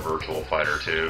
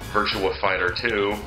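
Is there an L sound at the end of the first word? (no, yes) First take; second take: yes; no. First: The first word ends with an L sound. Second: The first word ends without an L sound. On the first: The speaker calls it wrong. "because I've heard people say it" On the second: The speaker calls it right. "it does not have an L in it"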